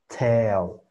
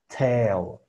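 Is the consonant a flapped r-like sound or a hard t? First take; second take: hard t; hard t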